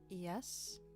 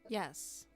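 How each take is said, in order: First: It rises at the end like a question. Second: It falls at the end like a statement.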